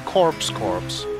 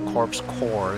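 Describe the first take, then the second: First: The second word ends with a 'ps' sound. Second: The second word ends without a 'ps' sound. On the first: The speaker calls it wrong. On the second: The speaker calls it right.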